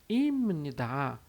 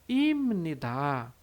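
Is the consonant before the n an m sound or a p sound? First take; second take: m; m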